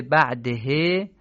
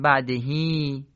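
First: "بعده" slow, ending on a short e; short he as written. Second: "بعدهی" ending on a long ee; lengthened final ee. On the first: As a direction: say "بعده" slowly with a short final e. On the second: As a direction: draw out the end of "بعدهی" into a long ee. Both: Shown as a demonstration. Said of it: "باید بخونیم بعدهی".

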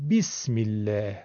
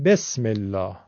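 First: بسم الله as 'bismillah', 'i' vowels, front 'a'; Arabic pronunciation. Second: بسم الله as 'besmellaah', with 'e' vowels; Persian pronunciation. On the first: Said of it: "عرب میگه". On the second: Teacher showing Persian habit, 'besmellaah' for بسم الله. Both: Shown as a demonstration.

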